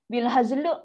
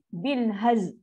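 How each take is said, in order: First: The phrase ends with an added vowel after l. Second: The phrase ends on z, with no l. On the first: "memang salah. Ada luk-luk kat belakang tu" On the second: "orang baca salah sebab apa? Dia lam dia tak masuk"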